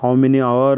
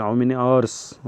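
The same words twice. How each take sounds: First: "hour" said without the final s, as the mistake to avoid; "How many hour", singular "hour" with no s sound; wrong singular. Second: Slow, with a clear s at the end of "hours"; correct plural. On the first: Teacher showing students the wrong form, singular "hour" without s. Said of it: "नहीं बोलेंगे". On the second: Teacher showing students the right form, slow plural "hours" with s. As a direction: stretch out "how many hours" and land the final s of "hours". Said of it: "How many hour नहीं बोलेंगे". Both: Shown as a demonstration.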